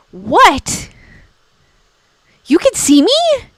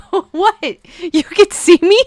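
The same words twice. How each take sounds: First: "What?" then "You can see me?" jumping much higher; hammed-up shock at being seen; mock ghost surprise. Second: Startled "What? You can see me?" rising high; feigned surprise, louder on "me"; mock ghost surprise. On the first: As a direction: play the startled ghost, pitch leaping up. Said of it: "the look on their face would be so hilarious". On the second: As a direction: play the ghost shocked at being seen. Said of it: "you have to say it with a straight face". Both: Shown as a demonstration.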